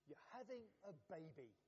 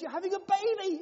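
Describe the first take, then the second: First: It is said plainly, without strong emotion. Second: It is said with squealing delight.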